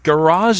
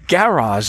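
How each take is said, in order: First: The stress is on the second syllable. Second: The stress is on the first syllable. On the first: This is how Americans say it. "Garage is what we say, with this emphasis on the latter syllable" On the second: This is how British people say it. "Garage is what I've heard a lot of Brits say"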